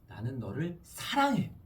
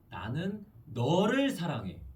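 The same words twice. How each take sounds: First: The stress is on 사랑해. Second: The stress is on 너를.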